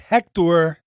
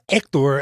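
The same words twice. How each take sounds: First: The name is said in an American accent. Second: The name is said in a Mexican accent.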